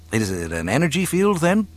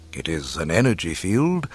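First: Quick, higher curious question; inquiring pupil. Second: Measured, knowing confirmation; almost mystical mentor. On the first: Pupil asking his mentor about the Force, quick curiosity. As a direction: ask it eagerly, wanting to understand. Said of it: "Luke inquired". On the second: Old mentor answering his pupil's question, measured and knowing. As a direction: confirm it as settled wisdom. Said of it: "Kenobi went on almost mystically". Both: A narrator's reading.

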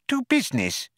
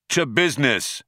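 First: High tiny businesslike mouse; squeaky mouse getting down to business. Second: Said in the usual way. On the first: Acted. Benji mouse voice.

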